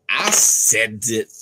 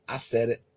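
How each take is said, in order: First: Louder, slow insistence; drawn-out defiant repeat; defiant emphasis. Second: Said in the usual way. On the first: Real, not acted. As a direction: own the statement, slowly.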